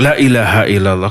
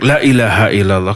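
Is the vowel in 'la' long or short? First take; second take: short; short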